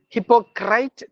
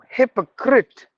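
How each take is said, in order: First: The last syllable sounds like 'crite'. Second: The last syllable sounds like 'crit'. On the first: The speaker calls it wrong. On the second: The speaker calls it right. "crit, not crite"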